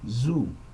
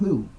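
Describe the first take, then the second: First: The first sound is a plain buzzing z. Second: The tongue sticks out between the teeth. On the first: "utilized with a Z" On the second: "you stick the tongue through the teeth"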